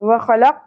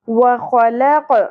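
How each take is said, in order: First: The final q stops flat with no bounce. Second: The final q is released with a bouncing echo. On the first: The speaker calls it wrong. "وخلق نہیں پڑھنا" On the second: The speaker calls it right. "ہلانا ہے قوف کو"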